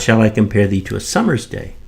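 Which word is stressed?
summer's. The stress falls on the word summer's. A summer's day, not another season, is chosen. "shall I compare thee to a summer's day or a winter's"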